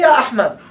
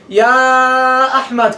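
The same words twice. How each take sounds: First: The vowel after Ya has normal length. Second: The vowel after Ya is stretched very long. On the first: This is how Arabs say it in everyday speech. "They say Ya Ahmad" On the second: This is the extra lengthening used in tajweed recitation. "they're not gonna make four harakat mad"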